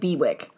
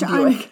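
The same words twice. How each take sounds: First: The name is read as its spelling suggests. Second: The name is said unlike its spelling suggests. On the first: The speaker calls it wrong. "so it looks like Bewick" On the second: The speaker calls it right. "But it's apparently pronounced Bewick"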